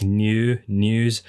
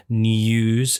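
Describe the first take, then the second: First: New news said slowly, plain noo; careful slow noo in new news; proper news. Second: News said with a y glide, nyooz; news with a nyoo sound; his news. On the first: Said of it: "supposed to be pronounced news". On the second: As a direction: say news as nujuz, glide before the oo. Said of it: "technically supposed to be pronounced news". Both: Shown as a demonstration.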